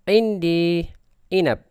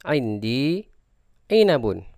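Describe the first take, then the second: First: The last word stops on a bare final consonant. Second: The last word ends with a full '-un' ending.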